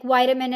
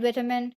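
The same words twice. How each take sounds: First: "vitamin" with a long i, VY-tuh-min; American pronunciation. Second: "vitamin" with a short i, VIT-uh-min; British pronunciation. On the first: Streamer showing viewers two accents' versions, "vitamin" as VY-tuh-min. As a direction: say "vitamin" with first syllable like "vie". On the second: Streamer showing viewers two accents' versions, "vitamin" as VIT-uh-min. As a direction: say "vitamin" with first syllable like "vit". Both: Shown as a demonstration. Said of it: "the pronunciation".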